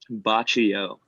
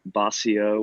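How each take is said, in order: First: The middle consonant is a 'ch' sound. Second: The middle consonant is an 's' sound. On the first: The speaker calls it right. "botch e o gelato, like you botched something" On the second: The speaker calls it wrong. "Even though it looks like Bossio"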